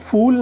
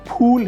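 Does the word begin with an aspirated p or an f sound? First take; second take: f; aspirated p. First: The word begins with an f sound. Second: The word begins with an aspirated p sound. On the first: It means a foolish person. The speaker calls it wrong. "फूल नहीं है" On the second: It means a flower. The speaker calls it right. "फूल है, फ फूल"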